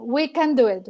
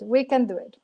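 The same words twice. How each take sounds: First: We can "do" it, with do punched; stress on do. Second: We "can" do it, with can punched and the level dropping back; stress on can. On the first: Guest insisting to the host that "do" carries the weight. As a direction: lean hard on "do". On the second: Guest repeating to the host, now stressing "can". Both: Real, not acted. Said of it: "No, no, no".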